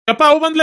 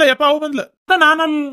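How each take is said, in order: First: High, loud panicked cry that she's back; panicked alarm. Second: Repeated high frightened cry, falling; panicked alarm. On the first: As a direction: yelp in alarm as if caught. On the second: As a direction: warn in a fright, still pitched high. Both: Acted. Man panics as wife arrives.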